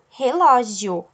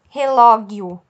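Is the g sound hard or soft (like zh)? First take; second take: soft; hard. First: The g is a soft zh sound. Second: The g is a hard sound, as in go. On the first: The speaker calls it right. "eu falo relógio, certo? O som é J" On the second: The speaker calls it wrong. "eu não tenho som de G, eu não falo relógio"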